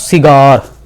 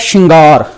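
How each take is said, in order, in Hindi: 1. यह शब्द सादी 's' ध्वनि से शुरू होता है। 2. यह शब्द 'sh' ध्वनि से शुरू होता है। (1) "ਬਿੰਦੀ ਲੱਗੀ ਨਹੀਂ ਹੋਈ, ਜੇ ਆਪਾਂ ਇਹਦਾ ਉਚਾਰਨ ਕਰਾਂਗੇ ਤਾਂ ਉਚਾਰਨ ਬਣੇਗਾ ਸਿਗਾਰ" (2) "ਸੱਸੇ ਦੇ ਪੈਰ 'ਚ ਬਿੰਦੀ ਲੱਗੀ ਹੈ"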